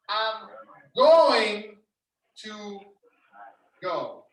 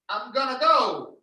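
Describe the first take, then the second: First: 'Going to' is said in full. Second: 'Going to' is reduced to 'gonna'. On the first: "means I'm going to go" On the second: "When you hear the phrase gonna"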